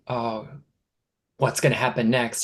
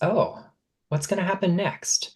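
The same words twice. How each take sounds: First: It sounds anxious and fearful. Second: It sounds open and curious. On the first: The future feels threatening. The speaker calls it wrong. "the pattern of fear" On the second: The future feels interesting. The speaker calls it right. "replace it with curiosity"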